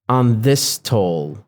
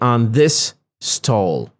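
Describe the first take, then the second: First: The two s sounds fuse into one. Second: The s sound is said separately in both words. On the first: "I said on this toll" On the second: "I did not say on this stall"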